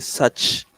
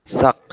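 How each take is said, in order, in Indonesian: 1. Kata itu berakhir dengan bunyi 'ch'. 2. Kata itu berakhir dengan bunyi 'k'. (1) "C-nya tetap dibaca C ya" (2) "jangan dibaca sak ya"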